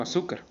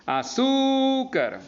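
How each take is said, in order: First: Said in the usual way. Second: "Azúcar" with ZÚ held long and high; stress on ZÚ. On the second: Shown as a demonstration. Teacher showing the accent in su, "Azúcar" with drawn-out high ZÚ. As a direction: stretch ZÚ in "Azúcar" slowly, high in pitch. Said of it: "tiene el acento en su".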